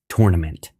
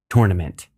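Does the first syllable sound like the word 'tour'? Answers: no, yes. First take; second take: yes; yes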